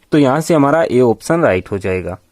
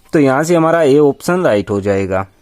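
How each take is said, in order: The two takes are said the same way.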